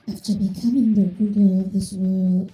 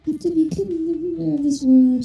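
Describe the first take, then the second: First: It is said in a lower, normal voice. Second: It is said in Ketchum's higher pitched voice.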